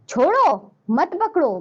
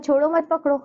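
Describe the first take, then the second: First: There is a pause after the word chhodo. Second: It is said straight through with no pause. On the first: Let go; do not hold on. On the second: It is unclear whether to let go or hold.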